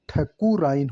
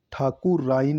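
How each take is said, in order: First: ठकुराइन with short opening "tha"; correct form. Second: ठाकुराइन with long opening "thaa"; wrong form. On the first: Teacher giving the right form: ठकुराइन with short tha. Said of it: "ठ आएगा". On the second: Teacher rejecting the wrong form: ठाकुराइन with long thaa. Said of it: "ठा नहीं आएगा". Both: Shown as a demonstration.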